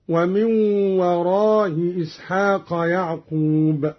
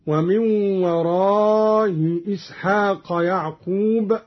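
First: Shorter a in وراء, softened hamza; eased hamza, qasr. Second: Long-held a in وراء, softened hamza; eased hamza, madd. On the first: Teacher showing Qalun's second option, وراء shortened with eased hamza. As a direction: keep وراء brief, glide loosely into إسحاق. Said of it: "مع المد والقصر". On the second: Teacher showing Qalun's first option, وراء lengthened with eased hamza. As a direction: stretch وراء, glide loosely into إسحاق. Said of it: "بتسهيل الهمزة الأولى مع المد". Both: Shown as a demonstration.

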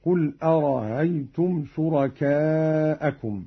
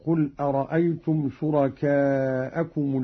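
First: أرأيتم with its second hamza eased into a light glide; softened second hamza. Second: Said in the usual way. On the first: Shown as a demonstration. Teacher demonstrating Qalun's reading, second hamza of أرأيتم softened. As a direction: say أرأيتم without the second glottal stop. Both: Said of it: "بتسهيل الهمزة الثانية هكذا".

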